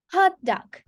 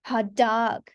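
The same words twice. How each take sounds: First: Hot dog with Hot high, dog dropping; Hot dog as one compound, HOT-dog; stress on HOT. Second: Hot dog as two words, weight on dog; stress on DOG. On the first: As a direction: hit Hot high, keep dog short. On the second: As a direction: lengthen dog, keep Hot unaccented. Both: Shown as a demonstration. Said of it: "we pronounce it quite differently".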